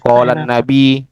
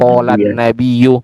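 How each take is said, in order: First: The word ends in a plain 'i' sound. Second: The word ends with an added '-yu' syllable. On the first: The speaker calls it wrong. "karena kadang kita pakai bahasa Indonesia" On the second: The speaker calls it right. "seharusnya Pak ya, bacanya apa?"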